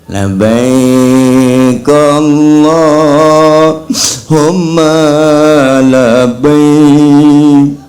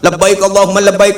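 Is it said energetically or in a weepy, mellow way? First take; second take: weepy; energetically. First: It is said in a weepy, mellow way. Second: It is said with lively, spirited energy.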